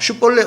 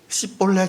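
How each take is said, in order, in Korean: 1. 이 단어는 'sh' 소리로 시작해요. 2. 이 단어는 평범한 's' 소리로 시작해요. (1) "원래 슈볼렛이라는 발음인데" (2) "자꾸 시볼렛, 시볼렛 이렇게만 돼요"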